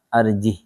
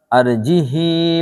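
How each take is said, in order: First: The word ends on the consonant h, no vowel. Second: The word ends with a short vowel after h. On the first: The speaker calls it right. "tapi malah arjih, ya mati" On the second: The speaker calls it wrong. "Bukan arjihi wa akhahu gitu"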